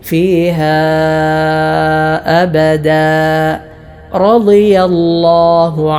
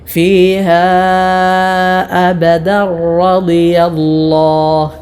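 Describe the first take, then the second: First: The voice stops after abada before continuing. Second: The words run together with a doubled r sound. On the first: "അബദ എന്ന പദത്തിൽ വഖഫ് ചെയ്യുകയാണെങ്കിൽ" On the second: "ചേർത്തോതുമ്പോൾ റായിൽ ശദ്ദു കൊടുത്തുകൊണ്ട്"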